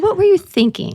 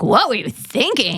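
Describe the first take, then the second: First: The question sounds soft and curious. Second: The question sounds sharp and accusing. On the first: The asker genuinely wants to understand. The speaker calls it right. "More like" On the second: The asker is blaming the listener. The speaker calls it wrong. "not accusatory, like"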